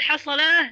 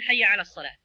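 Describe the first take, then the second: First: The phrase is clipped into one short word. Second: The phrase is said in full, every word. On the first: "اختصارا" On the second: "بدلا من"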